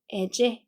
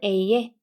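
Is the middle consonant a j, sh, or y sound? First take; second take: j; y. First: The middle consonant is a j sound. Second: The middle consonant is a y sound. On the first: "제라고 바뀌고" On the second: "예 소리가 나는데"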